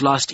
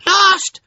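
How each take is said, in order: First: Said in the usual way. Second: Very high, loud one-word wail; echoing chorus cry. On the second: A narrator's reading. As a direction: shriek the echo as a crowd. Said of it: "voices echoed".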